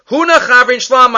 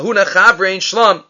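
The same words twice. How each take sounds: First: Huna said higher, slow and pointed; stress on Huna. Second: Said in the usual way. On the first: Shown as a demonstration. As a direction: lean on "Huna" to show no title. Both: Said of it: "Without calling him Rav Huna".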